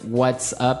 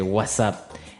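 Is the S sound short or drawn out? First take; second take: short; drawn out. First: It is said normally with a short S. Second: The S sound is stretched out long.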